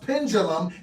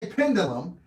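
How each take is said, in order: First: The middle consonant is a J-like sound. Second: The middle consonant is a plain D sound. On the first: The speaker calls it right. "it's pronounced pendulum, and there's no G in the word" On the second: The speaker calls it wrong. "So I say pendulum, and it's wrong"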